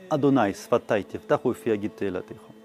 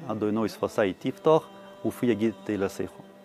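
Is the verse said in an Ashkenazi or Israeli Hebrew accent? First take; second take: Israeli; Ashkenazi. First: It is said with a standard Israeli Hebrew accent. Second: It is said with an Ashkenazi Hebrew accent.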